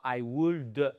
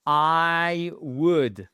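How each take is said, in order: First: "would" with an audible L and a released D-uh; L wrongly sounded. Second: "would" as wood, short OO and no L; silent L. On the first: Teacher shows learners the mistake to avoid, L sounded in "would". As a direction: say "would" as wool-duh, drawn out. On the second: Teacher models the correct form for learners, silent L in "would". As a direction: stretch "I", then say "would" like wood. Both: Shown as a demonstration. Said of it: "le L, vous ne l'entendez surtout pas".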